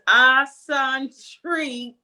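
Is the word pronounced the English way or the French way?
French. The word is pronounced with French sounds. The speaker calls it right. "It's just eccentric in in French"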